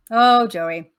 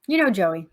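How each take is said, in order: First: Louder, fond cry of the name Joey; fond exclamation. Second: Said in the usual way. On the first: Retold or imitated. Teacher telling a class about Joey, fondly loud. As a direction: say Oh, Joey like everyone loves him.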